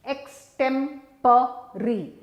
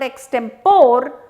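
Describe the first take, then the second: First: The word ends in 'puh-ree' with a final vowel. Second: The word ends in 'por' with no final vowel. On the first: The speaker calls it right. "And it's pa and re" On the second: The speaker calls it wrong. "it's not por, guys. So, it's not extempore"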